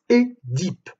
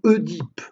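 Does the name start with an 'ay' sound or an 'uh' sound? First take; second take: ay; uh. First: The first vowel sounds like 'ay'. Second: The first vowel sounds like 'uh'. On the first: The speaker calls it right. "se prononce Édipe" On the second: The speaker calls it wrong. "et non Oedipe, comme on l'entend trop souvent"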